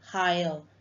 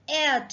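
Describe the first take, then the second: First: The word starts with an audible h sound. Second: The word starts with a vowel, no h sound. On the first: The speaker calls it wrong. "It's not higher" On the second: The speaker calls it right. "it's heir to the throne"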